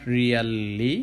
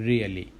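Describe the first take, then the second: First: "really" drawn out slowly as ree-YAL-lee; wrong pronunciation. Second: "really" said short as REE-uh-lee; correct pronunciation. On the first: Teacher showing what not to say, "really" dragged out as ree-YAL-lee. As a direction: stretch "really" with an open "yal" and a long l. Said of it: "not really". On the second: Teacher correcting the word for learners, "really" short as REE-uh-lee. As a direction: keep "really" compact, with a light middle vowel. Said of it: "but really". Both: Shown as a demonstration.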